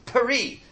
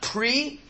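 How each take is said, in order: First: A short vowel separates the first two consonants. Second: The first two consonants run together with no vowel. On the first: The speaker calls it right. "it's peri. because it's a shva na" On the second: The speaker calls it wrong. "It's not pre"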